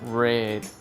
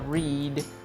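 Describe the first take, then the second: First: The vowel is short, like in 'red'. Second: The vowel is long, like in 'reed'. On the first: The action is in the past. "en pasado se pronuncia red, como el color rojo" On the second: The action is in the present. "en presente se pronuncia read"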